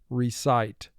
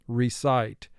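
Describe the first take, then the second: No difference in how they are said.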